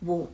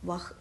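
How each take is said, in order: First: The word is said as 'vo' with a long o. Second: The word is said as 'vah' with an h. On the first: The speaker calls it right. "വോ എന്നാണ് പറയേണ്ടത്" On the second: The speaker calls it wrong. "വഹ് എന്നല്ല"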